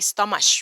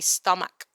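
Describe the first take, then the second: First: The middle sound is a ch sound. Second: The middle sound is a k sound. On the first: The speaker calls it wrong. "You don't say stomach" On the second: The speaker calls it right. "You say stomach"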